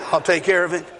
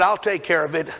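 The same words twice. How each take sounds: First: Amused mock of a kid's promise; knowing laugh. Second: Said in the usual way. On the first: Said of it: "How many of you heard that before?". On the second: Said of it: "my daughter said".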